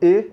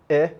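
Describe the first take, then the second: First: The vowel is closed. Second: The vowel is open. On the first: "é um som fechado" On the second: "é um som aberto"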